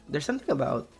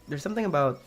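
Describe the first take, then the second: No difference in how they are said.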